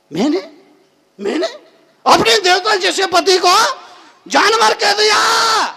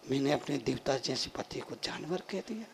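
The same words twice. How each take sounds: First: High, loud, appalled self-reproach; aghast remorse. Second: Very soft, low self-reproach; remorseful. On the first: (पछतावे में ऊँची, हैरान पुकार) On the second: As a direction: murmur it low to yourself in regret. (पछतावे में धीमी, दबी आवाज़) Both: Acted. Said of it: "उसको बड़ा पश्चाताप हुआ".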